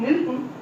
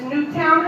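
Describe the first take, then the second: First: The second syllable is a reduced 'tun'. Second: The second syllable is a full 'town'. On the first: The speaker calls it wrong. "she doesn't say things correctly" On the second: The speaker calls it right. "it's Newtown High School, T O W N"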